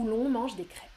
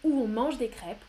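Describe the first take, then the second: First: "où l'on" said with an L between the vowels; with linking L. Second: "où on" said as two touching vowels; no linking L. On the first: Teacher gives the nicer-sounding form, linking L in "l'on". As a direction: link "où" to "on" through a clear L. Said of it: "plus joliment". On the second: Teacher compares both forms for students, vowels without linking L. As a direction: go from "où" straight into "on" with no consonant. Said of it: "c'est plus difficile que". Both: Shown as a demonstration.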